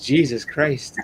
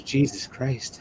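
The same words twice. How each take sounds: First: A lightly voiced stunned sister; quick retold gasp of disbelief; imitating his sister at normal pace. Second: Drawn out, very slow and stunned; imitating his sister, slow and shocked. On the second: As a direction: let each word hang in disbelief. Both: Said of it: "she just goes".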